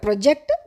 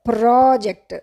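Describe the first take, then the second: First: The first syllable has a short vowel. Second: The first syllable has a long open vowel. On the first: Something bulges out from a surface. "ప్రొజెక్ట్ అది షార్ట్గా చెప్పాలి" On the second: It is a piece of work or a task. "దాన్ని ప్రా అనాలి"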